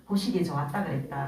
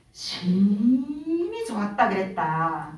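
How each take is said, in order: First: Said in the usual way. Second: 심히 drawn out slowly, each word weighed; slow down and lean on 심히 좋았다; the climax, spoken slowly with weight; stress on 심히. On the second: Shown as a demonstration. Genesis retold, climax refrain.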